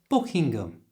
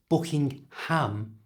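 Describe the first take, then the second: First: The H in the middle is silent. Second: The H in the middle is pronounced. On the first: The speaker calls it right. "simply don't pronounce the H" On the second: The speaker calls it wrong. "so it's not Buckingham"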